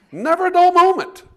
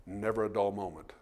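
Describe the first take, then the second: First: "Never a dull moment" shouted much higher and louder; shouted refrain. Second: Said in the usual way. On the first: Shown as a demonstration. Preacher repeating his punchline to the congregation, shouting. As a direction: belt out "Never a dull moment" like a rallying cry.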